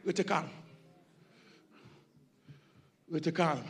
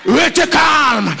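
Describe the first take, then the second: First: "Restez calme" breathed very softly and low; soft, low preacher's hush. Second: Loud, high and slow: RESTEZ CALME; booming slow preacher's order; shouted command. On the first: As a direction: sink to almost nothing, soothing. Preacher suddenly drops to hush. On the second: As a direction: call "Restez calme" out to the whole church. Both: Acted.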